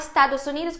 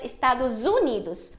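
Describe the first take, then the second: First: The s before Unidos is a voiceless s sound. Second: The s before Unidos is a voiced z sound. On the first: The speaker calls it wrong. "Ele fala Estados Unidos" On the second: The speaker calls it right. "quando deveria ser Estados Unidos"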